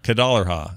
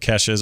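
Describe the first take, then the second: First: The name is said with 'dollar' in the middle. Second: The name is said with a plain 's' sound. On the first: "or as as we call her, ... you pronounce it instead of an S" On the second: "Her name reminds me of of [name]'s"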